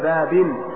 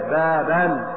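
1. تنتهي الكلمة بالحركة i ثم النون. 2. تنتهي الكلمة بالحركة a ثم النون. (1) "أو كسرة زيادة" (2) "أو فتحة زيادة"

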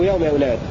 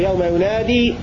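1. تنتهي الكلمة الأخيرة مقطوعة، بدون حرف المد. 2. تنتهي الكلمة الأخيرة بصوت مد طويل 'ee'. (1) "وله حذفها يوم يناد" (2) "فله إثبات الياء يوم ينادي"

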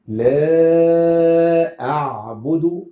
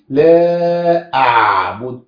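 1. صوت 'ain' واضح لكن بشكل معتدل. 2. صوت 'ain' يُبالغ فيه بقوة. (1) "ما زدتش عن كده" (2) "ينفعش نبالغ فيها"

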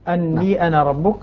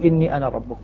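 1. الكلمة الأولى تبدأ بالصوت 'a'. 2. الكلمة الأولى تبدأ بالصوت 'i'. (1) "فتح الهمزة من أني" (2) "والباقون بالكسر"

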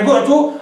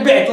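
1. الحركة الأولى هي الضمة. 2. الحركة الأولى هي الكسرة. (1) "عرف أنك بنيت لما لم يسمى فاعله" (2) "وإيش تدري الله مبني للفاعل ولا مبني لما لم يسمى فاعله"

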